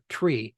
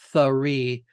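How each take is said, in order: First: It begins with a plain t sound. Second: It begins with a th sound. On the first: The speaker calls it right. "It is tree with no H in there" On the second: The speaker calls it wrong. "because the th, three doesn't come through too well"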